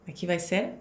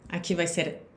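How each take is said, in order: Both takes have the same delivery.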